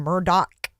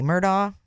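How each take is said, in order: First: The name is said the Lowcountry way. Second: The name is said the speaker's local way.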